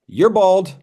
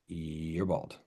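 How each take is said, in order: First: It is said with more force. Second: It is said quietly and understated.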